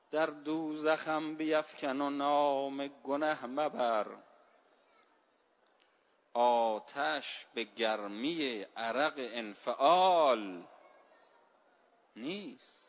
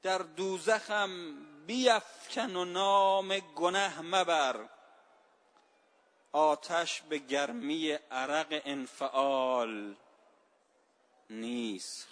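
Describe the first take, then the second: First: Slow, low recital of the verse; poem recital. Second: Slow falling recital of the verse; poem recital. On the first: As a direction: recite it slower and lower, sinking at the end. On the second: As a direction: savor each word of the couplet. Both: Shown as a demonstration. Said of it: "خیلی زیبا گفته صائب".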